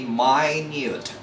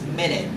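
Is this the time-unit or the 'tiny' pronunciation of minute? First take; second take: tiny; time-unit. First: Pronounced as the word meaning very small. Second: Pronounced as the word for sixty seconds. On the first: Very small. "The pronunciation must be minute. Minute means very small or tiny" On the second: A unit of time. "If you look into your clock or in your wristwatch, it's pronounced as minute"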